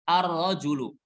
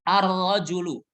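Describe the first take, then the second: No difference in how they are said.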